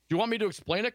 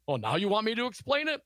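First: Said in the usual way. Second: Mock-incredulous sarcastic comeback, pitched up; high, sarcastic quoted question. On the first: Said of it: "Costello asked". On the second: A narrator's reading. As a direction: read it as a sarcastic retort. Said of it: "Costello replied sarcastically".

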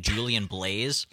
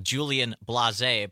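First: Blaze said in one syllable, rhyming with days; one-syllable pronunciation. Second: Blase said in two syllables, blah-ZAY; two-syllable pronunciation. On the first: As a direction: say Blaze like the English word for fire. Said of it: "there's a musician named [name]". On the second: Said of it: "Did we get a correct pronunciation". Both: Shown as a demonstration.

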